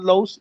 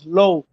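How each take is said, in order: First: The name ends with an s sound. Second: The name ends on a vowel. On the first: The speaker calls it wrong. "It's not Los" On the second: The speaker calls it right. "It's Low"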